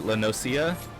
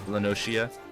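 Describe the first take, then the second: First: The middle consonant is an s sound. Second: The middle consonant is an sh sound. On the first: This is how some other people say it. "some people pronounce it Lenosia" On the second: This is how the speaker says it. "I pronounce the C as a she"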